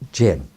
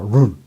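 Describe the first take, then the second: First: The word begins with a J sound. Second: The word begins with an R-like sound. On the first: This is the English reading of the spelling. "I call it Gen" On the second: This is how Chinese speakers say it. "They pronounce it like a run"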